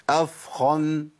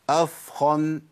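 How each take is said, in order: No difference in how they are said.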